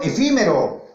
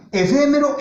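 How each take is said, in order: First: "efímero" with a clear stressed I in "fí"; "efímero", second syllable clearly "fi", falling at the end. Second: "Efémero" with a loud, high stressed E in "fé"; "Efémero", second syllable clearly "fe". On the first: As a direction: bring out the I vowel in "efímero", e-FÍ-mero. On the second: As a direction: punch the E vowel in "Efémero", e-FÉ-mero. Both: Shown as a demonstration. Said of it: "la E y la I".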